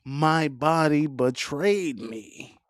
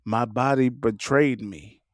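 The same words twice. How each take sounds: First: Slow, drawn-out melodramatic wail; over-the-top tragic delivery, slower and hammier; Tyler Perry, dragged out. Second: Lower, dramatic lament over a betrayal by the body; mock melodrama, voice dropped low; hammed-up tragic movie line; Tyler Perry. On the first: Retold or imitated. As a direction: stretch every word of the lament. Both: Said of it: "you be sounding like Tyler Perry".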